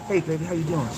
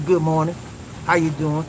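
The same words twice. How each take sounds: First: Put-on lower, softer sweet hello to baby; sweet and sincere. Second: Lower, offhand mock greeting; superficial greeting. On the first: Shown as a demonstration. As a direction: greet her like you truly mean it. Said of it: "Sweet, and be sincere about it". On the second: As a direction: toss off a shallow hello. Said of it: "no superficial".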